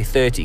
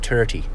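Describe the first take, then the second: First: The word starts with a 'th' sound. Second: The word starts with a plain 't' sound. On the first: "I love it when they say 30" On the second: "because it's always 30"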